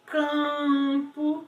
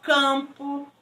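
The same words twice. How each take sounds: First: "campo" with a long, slow nasal "am"; nasalized vowel. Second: Said in the usual way. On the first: Shown as a demonstration. Teacher showing sound leaving the nose, nasalized vowel. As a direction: stretch the "am" of "campo" through the nose. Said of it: "Ela está nasalizando". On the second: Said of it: "Então, ó".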